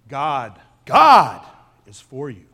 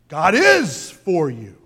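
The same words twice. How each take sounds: First: The stress falls on the word God. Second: The stress falls on the word is.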